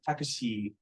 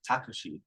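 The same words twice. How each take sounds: First: The final vowel is drawn out long. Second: The final vowel is short. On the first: It means a taxi. "you just make it longer" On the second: It could be a person's name. "that might be someone's name"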